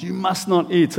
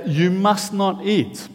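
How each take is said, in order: First: "You must not eat" with the weight on "not"; emphatic. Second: Slow, stress on "must"; "You must not eat" with "must" hit hard; emphatic. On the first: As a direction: stress on "not". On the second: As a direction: lean hard on "must", slowly. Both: Shown as a demonstration. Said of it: "It's emphatic".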